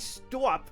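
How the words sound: The word is said in a Boston-like accent. The speaker calls it wrong. "I don't say stop. I'm not from Boston"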